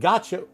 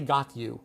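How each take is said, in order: First: It is reduced to 'gotcha'. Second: It is said in full as 'got you'. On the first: The speaker calls it right. "But gotcha, we would understand it absolutely" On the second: The speaker calls it wrong. "You can't say got you"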